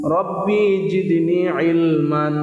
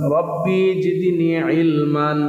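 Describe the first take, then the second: Both takes have the same delivery.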